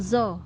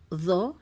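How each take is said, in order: First: The tongue tip touches the lower teeth. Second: The tongue sticks out and the sound is heavy. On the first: The speaker calls it wrong. "Selama ini kita bacanya zo ya. ... ujung lidah kita menempel uh, bersinggungan dengan gigi seri bawah" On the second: The speaker calls it right. "lidah kita keluarkan dulu ... harus tebal"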